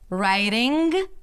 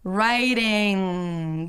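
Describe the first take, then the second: First: A hard g sound is popped at the end. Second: The ng sound is held and fades out. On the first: The speaker calls it wrong. "not right" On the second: The speaker calls it right. "stretch and hold out the N G sound and then fade it out"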